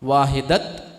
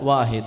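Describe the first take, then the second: First: The word ends with a t sound. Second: The word ends with a soft h sound. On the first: The speaker calls it wrong. "വാഹിദത്ത് എന്നല്ല" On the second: The speaker calls it right. "ആ ഹാഇന്റെ ഉച്ചാരണമാണ് പിന്നീട് വരിക"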